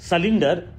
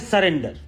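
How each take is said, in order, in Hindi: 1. दूसरा अक्षर 'lin' जैसा बोला जाता है। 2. दूसरा अक्षर 'ren' जैसा बोला जाता है। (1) "सरेंडर को सलिंडर और सलेंडर बोल रहे हैं" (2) "होता है सरेंडर"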